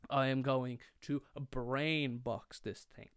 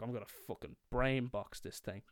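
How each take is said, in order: First: Slow, word-by-word declaration; mock-solemn, spacing out every word; deliberate resolve. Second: Said in the usual way. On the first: Repeats resolve with heavy deliberation.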